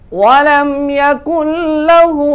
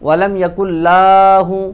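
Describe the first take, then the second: First: The first vowel of lahu is kept short. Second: The first vowel of lahu is drawn out long. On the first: The speaker calls it right. "लाम को लंबा नहीं करेंगे" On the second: The speaker calls it wrong. "अक्सर लोग इसको लंबा करके पढ़ते हैं, ये इंतहाई गलत है"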